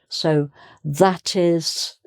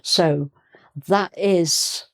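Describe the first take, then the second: First: The t is heard, linking smoothly. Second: The t is cut off, sounding broken up. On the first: The speaker calls it right. "much smoother and it's clearer too because you can hear the T" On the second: The speaker calls it wrong. "how broken up uh, it can sound"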